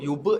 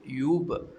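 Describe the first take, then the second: First: The final b is followed by a full vowel. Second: The final b ends with a short light bounce. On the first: The speaker calls it wrong. "jangan terlalu yube gitu. Yube tak nak" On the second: The speaker calls it right. "bunyi ke huruf ba mati tu"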